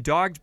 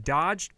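First: "dogged" said as dog-d with a hard g; "dogged" read correctly after the slip; corrected word. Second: "dodged" said as dodge-d, rhyming with lodged; "dodged" misread for dogged; misread word. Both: Real, not acted. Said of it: "it has been dogged".

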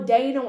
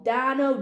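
First: Dano with a long A, DAY-no; alternative pronunciation. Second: Dano with a short A, DAN-oh; first pronunciation attempt. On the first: Unsure host offering another surname reading, Dano as DAY-no. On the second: Unsure host trying out an actor's surname, Dano as DAN-oh. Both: Shown as a demonstration. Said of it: "don't know how to pronounce his fucking name".

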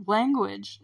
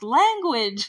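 First: "Language" said calmly and evenly; a calm, mild dad's warning on "Language"; calm reprimand. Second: "Language!" barked out louder; a dad snapping "Language!" at his daughter; a louder dad's rebuke on "Language!"; sharp reprimand. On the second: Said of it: "her dad's like". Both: Retold or imitated.

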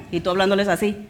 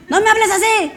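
First: Said in the usual way. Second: High, loud indignant cry; child yelling back. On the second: Retold or imitated. Teen shouting at parent who talks harshly, high loud protest.

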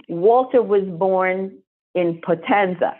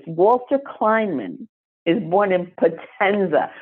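First: Every word laid down slowly; slow emphasis. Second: Walter Kleinman spelled out slowly, weight on Walter; slow, deliberate restatement; slow emphasis. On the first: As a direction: let each word land. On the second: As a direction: press the full name home. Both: Shown as a demonstration. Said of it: "I want you to think about this".

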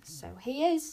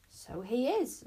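First: Higher, louder, pleased agreement; proud owner showing off. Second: Mild, innocent surprise; lightly feigned discovery; as if just noticing. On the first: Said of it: "said Wish proudly". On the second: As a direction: pretend you've only now spotted it. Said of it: "as if she'd only just noticed". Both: A narrator's reading.

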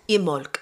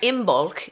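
First: Imolc said as "im-olk"; Imolc, silent b; B left out. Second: Imbolc with the b sounded; Imbolc, American way, clear b before the ol; American pronunciation. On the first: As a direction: say Imolc with m running straight into the vowel. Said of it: "You take out the B". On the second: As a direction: say Imbolc as "im-bolk". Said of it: "definitely the American way of saying it". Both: Shown as a demonstration.

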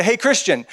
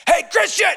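First: Said in the usual way. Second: High-pitched mock yell; playful yell. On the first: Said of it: "now it's not the same thing". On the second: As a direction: call out like a fan in the stands. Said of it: "I'm gonna yell".

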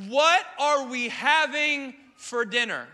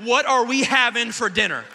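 First: Slow, eager and hopeful, a little louder; drawn out, hungry and hopeful; eager question. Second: Much louder, demanding the answer; hammed-up outraged demand; husband mock-demanding his wife tell him the truth, loud. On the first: Retold or imitated. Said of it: "I'm so excited". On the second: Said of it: "I said".

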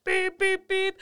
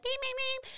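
First: High, loud mock car horn beeps; imitating angry horn. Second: Much higher, softer timid beeps; a feeble car horn that scares nobody; weak little horn. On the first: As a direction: honk at the driver with your voice. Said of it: "And I go". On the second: Retold or imitated. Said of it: "does not sound as aggressive as I want to".

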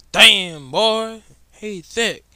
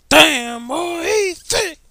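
First: Loud, high mock hype voice; meme catchphrase. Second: Much higher and slow, stretched mock hype; drawn-out meme catchphrase. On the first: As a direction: bellow it like the viral meme. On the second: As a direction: drag each word out, hamming up the meme.

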